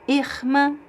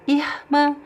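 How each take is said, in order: Both takes have the same delivery.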